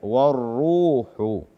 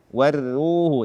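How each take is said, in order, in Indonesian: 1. Bunyi r terdengar tebal dan berat. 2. Bunyi r terdengar tipis dan ringan.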